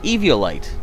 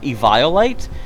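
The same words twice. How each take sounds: First: The word has no sound like 'vile' in it. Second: The word has a sound like 'vile' in it. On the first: The speaker calls it right. "I pronounce it Eviolite" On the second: The speaker calls it wrong. "that sounds negative, like it sounds vile"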